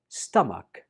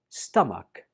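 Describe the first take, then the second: First: The middle consonant is a 'k' sound. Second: The middle consonant is a 'k' sound.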